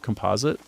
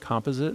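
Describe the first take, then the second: First: The word is said the American way. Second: The word is said the British way. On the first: "instead of composite" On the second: "I also catch myself saying composite"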